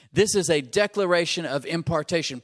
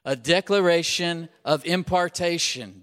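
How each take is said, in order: First: Louder, stress on declaration; emphatic preached refrain; repeated slogan. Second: Louder, led for the crowd to repeat; emphatic chant of the slogan; call and response. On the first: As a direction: drive the rhyme home. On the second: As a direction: lead the congregation in saying it. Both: Shown as a demonstration. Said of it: "Say that with me".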